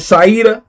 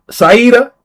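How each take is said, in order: First: Saida said sigh-duh, the end level; sounding out a name. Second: Saida said sigh-duh, the end rising; sounding out a name. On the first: Streamer checks the chatter's name, Saida as sigh-duh. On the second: Streamer sounding out a chatter's name, Saida as sigh-duh. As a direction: try out Saida as sigh-dah. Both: Shown as a demonstration. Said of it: "That's how you say it".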